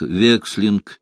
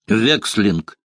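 First: Said in the usual way. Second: A lightly voiced alarmed exclamation; a hint of a startled innkeeper's cry; mild mock cry. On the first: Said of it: "у него много названий". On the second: A narrator's reading. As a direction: blurt the name out in alarm, understated. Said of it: "выкрикнул трактирщик".

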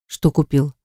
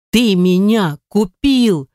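First: Said in the usual way. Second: Wife sobbing at her husband, slow and tearful; sobbing accusation. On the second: A narrator's reading. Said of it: "Снова громко всхлипывает она".

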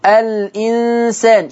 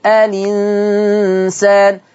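First: الإنسان said slowly as al-insan, with the hamza kept; slow al-insan with the glottal stop. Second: الإنسان drawn out slowly as linsan, the kasra moved to the lam; with naql. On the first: Teacher gives the word before moving the hamza. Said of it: "شيل الهمزة". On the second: Teacher demonstrates Warsh naql to students, slowly. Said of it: "خد الكسرة حطها على اللام". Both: Shown as a demonstration.

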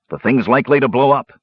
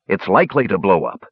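First: Higher-pitched, emphatic warning. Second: Mildly exasperated, matter-of-fact statement; irritable. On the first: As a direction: caution them with alarm in the pitch. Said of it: "Dugan warned". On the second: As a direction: state the obvious with weary impatience. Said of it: "Dugan snapped irritably". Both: A narrator's reading.

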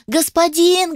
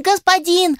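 First: High squeaky spider call; squeaky shout. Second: Very high squeaky spider call; squeaky shout. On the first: The little spider squeaks over the noise to its master. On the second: The little spider calls its master over the noise. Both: A narrator's reading. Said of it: "паучок пытался всех перекричать".

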